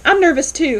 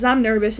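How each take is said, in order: First: Higher and louder, blurted out; doctor blurting he's nervous too, higher and louder; flustered reply. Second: Said in the usual way. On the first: Retold or imitated. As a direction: blurt it back, rattled. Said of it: "and he goes". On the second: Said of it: "she says when she walks in".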